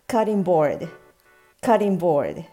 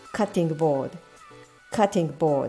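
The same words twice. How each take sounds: First: It flows with no stop in the first word. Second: It has a short stop in the first word. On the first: It sounds like natural English. The speaker calls it right. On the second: It sounds Japanese. The speaker calls it wrong.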